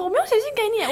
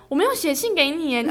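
First: Higher, acted innocent denial; pretending nothing happened; feigned calm. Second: Feigned calm. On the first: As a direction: play it cool but too high. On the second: Retold or imitated. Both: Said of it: "我还要装得很镇定".

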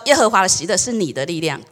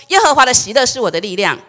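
First: Said in the usual way. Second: Congregation declaring aloud with the 我 said as their own; 会众齐声宣告; declaring together. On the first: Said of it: "再跟你旁边的说". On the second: Shown as a demonstration. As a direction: proclaim "耶和华的喜乐是我的力量" firmly as a group. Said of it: "我们一起说".

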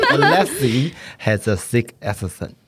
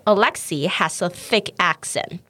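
First: "thick" as "sick", "accent" blurred, laughing; mispronounced. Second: Slow, clear "Alexei has a thick accent"; teacher reading slowly; slow model. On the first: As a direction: stumble through "Alexei has a thick accent" laughing. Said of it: "舌头伸出来". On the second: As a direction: say it slowly for the learner. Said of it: "我再念一次". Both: Shown as a demonstration.

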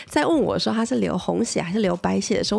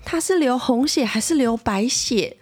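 First: Said in the usual way. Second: Put-on slower, higher, earnest little-girl question; little sister solemnly asking mom about her sister's blood. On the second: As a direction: ask it the way a serious three-year-old would. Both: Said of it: "很认真、很诚恳".

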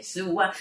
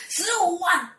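First: Said in the usual way. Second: High, loud shriek of disbelief; shocked echo. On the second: Retold or imitated. Classmate reads the huge fee, acted shocked outcry. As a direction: imitate an astonished friend's outcry.

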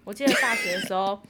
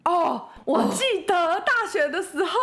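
First: Said in the usual way. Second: Slow and high, laughing. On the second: Real, not acted. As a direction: stretch the line out while laughing. Recalling, laughing.

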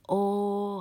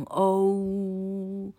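First: O held as a pure "oh", before the "oo"; 拆音示范. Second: O very drawn out, gliding from "oh" into "oo"; 双母音示范. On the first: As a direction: stretch the first half of O on a higher note. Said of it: "它要念O". (把O的前半音拉长，不滑到U) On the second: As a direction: slowly slide a high O through both vowels. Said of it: "才会变成O". (慢慢拉长O，从“喔”滑到“呜”) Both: Shown as a demonstration.

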